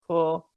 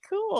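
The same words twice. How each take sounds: First: The word is said flat and monotone. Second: The word is said with some lift and expression. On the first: He does not like it. "like more monotone" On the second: He really likes it. "he actually means it"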